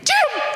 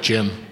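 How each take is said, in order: First: The name is said loudly with high energy. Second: The name is said in a relaxed, low-energy way. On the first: The speaker calls it right. "It's going to be" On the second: The speaker calls it wrong. "I don't think he's going to be that casual. I don't think he's going to be like"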